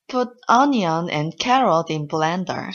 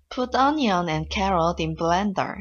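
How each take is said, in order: First: It is said with stronger, more forceful stress. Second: It is said in a kind, gentle way.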